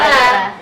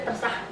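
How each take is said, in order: First: The word is drawn out long. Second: The word is clipped short. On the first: She really doesn't mind either way. "jawaban terserahnya tuh panjang" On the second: She is angry and you made a serious mistake. "Kalau nggak T R S T R H itu ya fatal"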